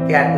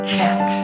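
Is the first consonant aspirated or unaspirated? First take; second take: unaspirated; aspirated. First: The first consonant has no puff of air. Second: The first consonant has a strong puff of air. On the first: The speaker calls it wrong. "ক্যাট না বলে" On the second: The speaker calls it right. "আমরা বলবো খ্যাট"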